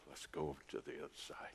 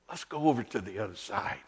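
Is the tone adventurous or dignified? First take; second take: dignified; adventurous. First: It is said in a calm, dignified tone. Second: It is said in an eager, adventurous tone. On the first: "Some would read it with dignity" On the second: "with a sense of adventure"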